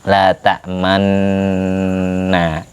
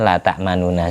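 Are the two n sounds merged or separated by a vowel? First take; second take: merged; separated. First: The two n sounds merge into one doubled n. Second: The two n sounds are separated by a vowel. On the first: This is the recited form after merging. "Setelah diidghamkan jadi nunnya tinggal satu rangkep" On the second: This is the underlying form before merging. "Sebelum diidghamkan"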